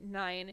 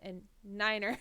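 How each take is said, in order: First: It is said with one syllable. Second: It is said with two syllables. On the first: This is the everyday way to say the number. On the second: This is the radio-procedure way to say the number.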